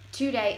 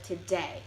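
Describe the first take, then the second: First: "today" as TOO-day; stress on first syllable. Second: Said in the usual way. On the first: Shown as a demonstration. Presenter showing Chicano English, "today" stressed at the start. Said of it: "emphasis is on the beginning of the word". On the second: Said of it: "put the emphasis on the end of the word".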